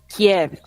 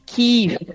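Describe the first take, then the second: First: The name is said the Russian way, Kee-yev. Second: The name is said the Ukrainian way, Kyiv. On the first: "que é a pronúncia russa" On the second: "Em ucraniano, é Kiev"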